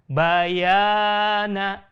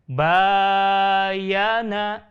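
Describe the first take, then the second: First: The vowel of the second syllable is long. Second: The vowel of the first syllable is long. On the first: "Huruf yang kedua" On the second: "Huruf yang pertama"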